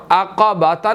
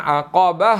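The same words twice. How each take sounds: First: عقباتا with the final ta sounded; the mistaken form عقباتا; wrong reading. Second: عقبہ, the stop dropping the ta; pausal form. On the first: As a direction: say عقباتا with the ta still pronounced. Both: Shown as a demonstration. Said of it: "عقباتا نہیں ہم نے پڑھنا".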